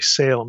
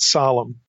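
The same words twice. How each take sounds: First: The name is given an English-style pronunciation. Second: The name is given a non-English, Semitic-style pronunciation. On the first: The speaker calls it wrong. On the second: The speaker calls it right.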